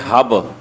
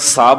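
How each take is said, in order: First: The word begins with an h sound. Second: The word begins with an s sound.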